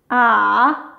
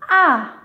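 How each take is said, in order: First: The pitch dips low, then rises again. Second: The pitch falls sharply from high to low. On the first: "qui part du niveau deux, qui descend jusqu'au un, et ensuite, il remonte jusqu'au niveau quatre" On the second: "qui part du niveau cinq, le plus haut vers le plus bas"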